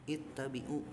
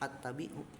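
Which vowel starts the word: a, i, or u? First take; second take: i; a. First: The word begins with an i vowel. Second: The word begins with an a vowel. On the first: The speaker calls it right. "tapi ittabi'u gitu kasroh" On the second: The speaker calls it wrong.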